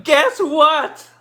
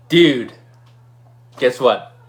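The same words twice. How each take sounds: First: High, loud yell; excited yell. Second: Said in the usual way. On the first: Retold or imitated. Winner calling a friend with big news, excited yell. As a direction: yell it down the phone, bursting with news. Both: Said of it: "And then I yell at him".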